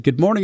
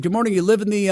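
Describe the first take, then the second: First: Said in the usual way. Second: Higher, friendly neighbor voice; a hint of the chatty neighbor; lightly voiced neighbor. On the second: Neighbor voiced in retold story.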